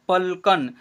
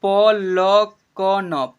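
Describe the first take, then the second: First: Said in the usual way. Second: "पलकन" loud and slow as प, ल, क, न; letter by letter. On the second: Shown as a demonstration. Teacher showing learners what is written, "पलकन" letter by letter. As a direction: stretch "पलकन" into four long syllables. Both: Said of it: "क्या लिखा हुआ है?".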